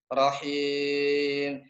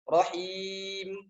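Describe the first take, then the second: First: The final vowel drifts toward an e sound. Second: The final vowel stays a pure i sound. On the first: The speaker calls it wrong. "Itu bukan mutlak i" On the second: The speaker calls it right. "nah baru butuh bunyi i"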